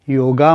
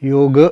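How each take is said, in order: First: The word ends in a long 'aa' vowel. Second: The word ends in the consonant 'g'. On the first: The speaker calls it wrong. "लोक योगा म्हणतात हे चुकीचं आहे" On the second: The speaker calls it right. "योग असा शब्द मुळात आहे"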